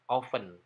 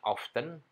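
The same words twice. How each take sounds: First: The t is silent in the middle. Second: The t sound is pronounced in the middle. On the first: The speaker calls it right. "tanpa T" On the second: The speaker calls it wrong. "pakai T"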